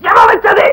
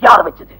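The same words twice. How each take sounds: First: Very high-pitched enraged yell; shouting. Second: Low, menacing question before the outburst; stern demand. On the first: Teacher screaming at the class to find the culprit, shouting. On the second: Teacher pressing the class for the culprit, stern and low. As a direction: ask again with lowered pitch, holding anger in. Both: Acted. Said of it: "ஏன் sir சும்மா கத்துறீங்க".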